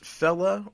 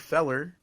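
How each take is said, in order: First: It ends in a vowel with no R sound. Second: It ends with a clear R sound. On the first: The speaker calls it right. "but more so fella" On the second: The speaker calls it wrong. "It's a hard R"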